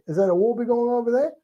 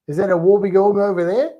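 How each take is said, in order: First: Very high, rising Aussie question; high-pitched mock Aussie echo; kids copying Australian accent. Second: Higher, louder Aussie question; teacher modelling a broad Australian accent. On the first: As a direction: imitate schoolkids parroting an Australian accent. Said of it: "And they say". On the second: Shown as a demonstration. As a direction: lift it into a rising Aussie question. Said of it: "say it in an Australian accent".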